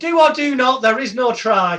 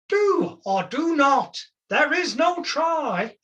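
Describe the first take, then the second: First: It is said in his normal voice. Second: It is said in a Yoda impression.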